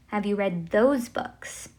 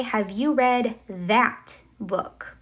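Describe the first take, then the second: First: Said in the usual way. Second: Slow, careful example sentence; slow demo question. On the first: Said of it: "esos libros". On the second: Shown as a demonstration. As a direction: read it slowly for the learners. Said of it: "I'm going to say".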